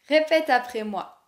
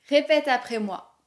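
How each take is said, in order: Both takes have the same delivery.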